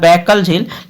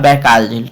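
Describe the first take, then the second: First: The second syllable has a short vowel. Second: The second syllable has a long vowel. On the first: The speaker calls it wrong. "Hindi में लिख दी गया है बैकल झील" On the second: The speaker calls it right. "लेकिन ऐसे होता है बैकाल झील"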